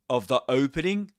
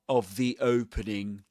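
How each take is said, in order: First: 'The' is said with a short schwa vowel. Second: 'The' is said with a long 'ee' vowel. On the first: The speaker calls it wrong. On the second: The speaker calls it right.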